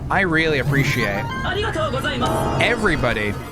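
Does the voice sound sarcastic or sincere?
sincere. It is said in a sincere tone. The thanks are meant.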